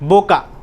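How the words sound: It begins with a b sound.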